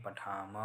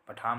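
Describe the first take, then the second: First: पठाम with an audible अ after the म; final vowel sounded. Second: पठाम ending on a closed m, final अ dropped; clipped final vowel. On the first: Teacher correcting students, पठाम with its final अ fully pronounced. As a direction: say पठाम as "pathaa-ma", last syllable sounded. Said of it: "म में लगा हुआ अ". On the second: Teacher showing students the mistake, पठाम without its final अ. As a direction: say पठाम as "pathaam", no vowel after म. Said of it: "पठाम नहीं". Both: Shown as a demonstration.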